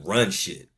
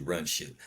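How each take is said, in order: First: "run shit" slower, each word leaned on; slow down and hit "run shit" hard; emphatic repeat. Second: Said in the usual way. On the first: Shown as a demonstration. Vlogger insists to his audience, slow stressed "run shit". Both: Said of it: "I mean, run shit".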